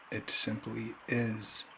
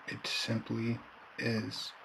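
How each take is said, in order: Both takes have the same delivery.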